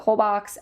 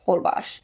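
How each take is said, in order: First: The name is said as its spelling suggests. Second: The name is said the way locals say it. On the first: This is how an outsider might guess it. The speaker calls it wrong. "you might pronounce it" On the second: This is how people there actually say it. The speaker calls it right. "Everyone pronounced it"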